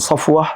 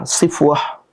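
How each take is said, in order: First: The first vowel is an open a sound. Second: The first vowel is an i sound.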